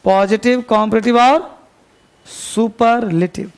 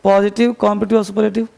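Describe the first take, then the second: First: Slow it down so students can write; slow dictation. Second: Quick recap. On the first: Teacher dictating a list to students, slowly. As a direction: dictate it slowly, the last word stretched out. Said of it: "पहले उसका list बनाइए". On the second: Teacher reminding students of the headings, fast. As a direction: rattle the three terms off fast. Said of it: "तीन list लिखो पूरे page पर". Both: Shown as a demonstration.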